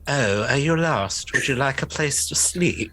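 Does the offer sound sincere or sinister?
sinister. It sounds like a sinister, menacing offer.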